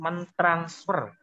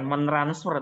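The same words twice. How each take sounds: First: The t sound after 'men' is kept. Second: The t sound after 'men' is dropped. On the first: The speaker calls it right. "tidak luluh ya, ... tapi" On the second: The speaker calls it wrong.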